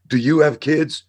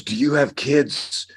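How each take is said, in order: First: Higher and louder demand; desperate father yelling. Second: Slow, higher pleading question; desperate father. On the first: Father grabbing the officer, repeating it higher and louder. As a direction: push the question harder, near a shout. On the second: Father grabbing the officer, higher and slow in desperation. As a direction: plead slowly as a frantic dad. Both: Retold or imitated.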